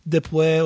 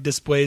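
First: The s sound in the word is dropped. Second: The s sound in the word is pronounced. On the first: "They drop their S's" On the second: "instead of like después"

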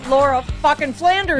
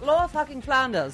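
First: It is said in the speaker's own accent. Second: It is said in a classier English accent.

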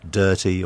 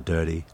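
First: The T is crisp and clearly released. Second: The T is soft, almost like a D. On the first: "what was once" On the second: "is now"

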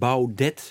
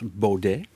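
First: The name is pronounced the Dutch way. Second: The name is pronounced the French way. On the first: It is said this way to tease him. "die hem daarmee plaagt" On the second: This is how the bearer says it himself. "op zijn Frans"

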